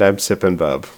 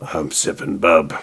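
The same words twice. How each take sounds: First: It is said in a normal voice. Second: It is said in a gruff Wolverine-like growl.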